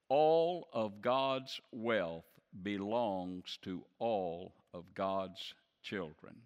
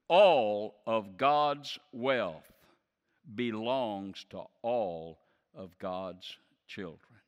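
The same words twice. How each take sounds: First: It is said at a normal speaking volume. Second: It is shouted loudly with strong force.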